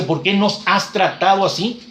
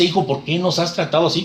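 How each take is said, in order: First: "nos" lifted and drawn out, each word slowed; slow, weighted "¿Por qué nos has tratado así?" with the rise on "nos"; stressed slowly. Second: Said in the usual way. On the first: Shown as a demonstration. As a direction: lean into "nos" and let the question hang. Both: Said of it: "la frase que dice".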